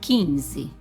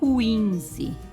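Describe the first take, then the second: First: The k is followed directly by the i. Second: The k is followed by a w sound. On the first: The speaker calls it right. "eu não pronuncio o U" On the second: The speaker calls it wrong. "eu não digo quinze"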